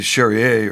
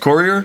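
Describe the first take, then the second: First: The surname is said like Charrier. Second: The surname is said like Courier. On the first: The speaker calls it wrong. "I used to say Charrier" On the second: The speaker calls it right. "It's Courier"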